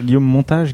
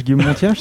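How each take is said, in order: First: Said in the usual way. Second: « Montiage » avec un i glissé avant le a, en riant; déformation moqueuse. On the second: Shown as a demonstration. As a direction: dire « Montiage » au lieu de Montage, en riant de la blague. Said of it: "c'était une blague sur Guillaume Montage". (prononcé « Montiage », ti-a bien détaché, avec un rire)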